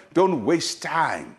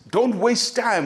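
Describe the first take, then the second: First: "don't waste time" very slow, each word leaned on; slow, weighty repeat. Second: "Don't waste time" pitched high and quick-moving; higher urgent plea. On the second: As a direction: push "Don't" up high, urging them on. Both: Shown as a demonstration.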